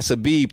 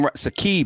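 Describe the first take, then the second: First: The middle consonant is a b sound. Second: The middle consonant is a k sound. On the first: The speaker calls it wrong. "I said Sabib" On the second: The speaker calls it right. "and then Sakib"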